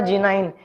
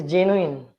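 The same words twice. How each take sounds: First: "genuine" as JEN-yoo-INE, with a long I at the end; wrong genuine. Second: "genuine" as JEN-yoo-in, with a short I; correct genuine. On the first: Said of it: "it is not a". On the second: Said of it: "it is". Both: Shown as a demonstration.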